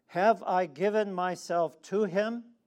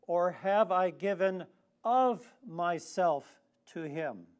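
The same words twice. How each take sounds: First: Said in the usual way. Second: "of" set apart and hit hard; loud challenge, punching the word "of"; stress on OF. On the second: Shown as a demonstration. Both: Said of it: "You see the difference?".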